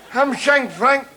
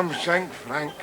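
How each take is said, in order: First: Chuckling start to the gossip; amused telling. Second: Softer, drawn-out recollection of the name; quiet musing on an old nickname. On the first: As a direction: relish the nickname. Launches into the story. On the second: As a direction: say it as a memory surfacing. Recalling an old schoolmate. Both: Acted.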